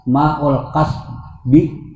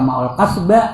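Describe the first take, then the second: First: The last word ends with an 'i' vowel. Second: The last word ends with an 'a' vowel. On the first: The speaker calls it right. "Jangan. Ma'ul kasbi" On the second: The speaker calls it wrong. "Jangan dibaca ma'ul kasba"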